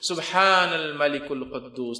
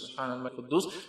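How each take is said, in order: First: It is said loudly. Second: It is said quietly.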